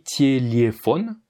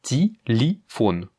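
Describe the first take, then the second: First: Tiéliéphone lu lentement lettre par lettre; spelled-out reading. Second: Ti-li-phone with i for each yé, said slowly; ti-li-phone, drawn out, every yé as i; reduced vowels. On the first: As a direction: prononcer tiéliéphone comme écrit, ti-é-li-é. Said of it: "ça s'écrit". (tiéliéphone articulé lentement comme il s'écrit) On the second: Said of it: "Ce qui va donc donner". (ti-li-phone lentement, les yé en i) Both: Shown as a demonstration.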